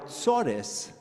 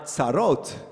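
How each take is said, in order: First: It is said with Ashkenazi Yiddish pronunciation. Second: It is said with Sephardi Israeli pronunciation. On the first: The troubles of the old life in exile. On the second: The new troubles of life in the land.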